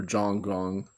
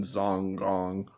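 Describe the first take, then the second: First: Zhonggong said with a J, like "Jong-gong"; alternative pronunciation. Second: Zhonggong said with a buzzing Z, like "Zong-gong"; alternative pronunciation. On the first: Speaker offering another reading of the name, Zhonggong pronounced with a J. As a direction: start Zhonggong on a J sound. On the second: Speaker naming a qigong school, Zhonggong pronounced with a Z. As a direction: start Zhonggong on a Z sound. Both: Shown as a demonstration. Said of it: "they pronounce it Zhonggong".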